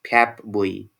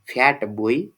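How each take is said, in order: First: The first word ends with a p sound. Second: The first word ends with a clear t sound. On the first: "assimilated pronunciation is" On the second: "the original pronunciation of the phrase F A T B O Y is"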